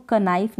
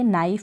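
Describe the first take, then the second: First: कनाइफ with the k sounded before नाइफ; कनाइफ said wrongly with a hard k; wrong pronunciation. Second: Said in the usual way. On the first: Shown as a demonstration. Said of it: "इसको कनाइफ नहीं pronounce करेंगे". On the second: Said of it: "नाइफ pronounce करेंगे".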